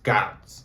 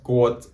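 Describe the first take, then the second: First: The vowel sounds like the one in 'out'. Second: The vowel sounds like the one in 'boat'. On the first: The speaker calls it wrong. "usually pronounced as gout" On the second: The speaker calls it right. "his father said his name is Goat"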